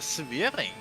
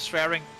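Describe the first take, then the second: First: The name is pronounced with Dutch sounds. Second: The name is pronounced with English sounds.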